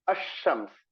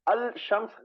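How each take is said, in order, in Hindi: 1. L खामोश रहता है, sh की आवाज़ में मिल जाता है। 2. sh की आवाज़ से पहले L साफ़ बोला जाता है। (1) "क्या पढ़ेंगे इसको?" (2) "गलत हो जाएगा"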